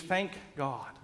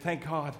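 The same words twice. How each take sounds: First: Softer relieved Thank God. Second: Exasperated. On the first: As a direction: breathe it out in relief. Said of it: "When we're feeling relieved". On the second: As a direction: Thank God with a weary, fed-up edge. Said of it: "Even feeling exasperated". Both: Acted.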